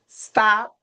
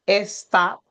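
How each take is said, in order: First: The word begins directly with the s sound. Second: An extra vowel comes before the s sound.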